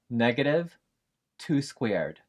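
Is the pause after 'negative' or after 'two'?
after negative. A break after negative, then two squared grouped. The square of two is made negative. "Box E is pronounced"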